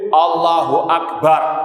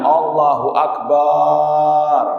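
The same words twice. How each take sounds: First: The vowel after the b is short. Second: The vowel after the b is drawn out long. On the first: God is the greatest. The speaker calls it right. "itu kan baknya pendek" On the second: The word turns into one meaning a drum. The speaker calls it wrong. "karena ingin suaranya indah"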